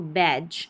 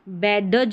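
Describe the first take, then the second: First: It ends in a plain j sound only. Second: A separate d sound comes before the j. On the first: The speaker calls it right. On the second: The speaker calls it wrong. "बैडज नहीं बोलेंगे इसको"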